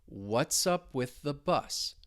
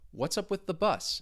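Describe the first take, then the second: First: It is spoken slowly. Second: It is spoken at a normal speed. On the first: "I'll say it two times slowly" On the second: "at more of a normal speed"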